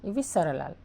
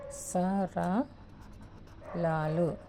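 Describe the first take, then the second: First: Said in the usual way. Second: సరళాలు stretched out very slowly; slow dictation. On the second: Shown as a demonstration. Teacher dictating a term to students, very slowly. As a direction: draw out సరళాలు syllable by syllable.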